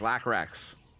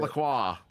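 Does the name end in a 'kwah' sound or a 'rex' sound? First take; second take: rex; kwah. First: The name ends with a 'rex' sound. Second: The name ends with a 'kwah' sound. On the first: The speaker calls it right. "It is" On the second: The speaker calls it wrong. "it is not"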